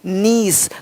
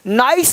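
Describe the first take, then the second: First: The vowel sounds like 'ee'. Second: The vowel sounds like 'eye'. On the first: The speaker calls it right. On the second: The speaker calls it wrong. "नाइस नहीं"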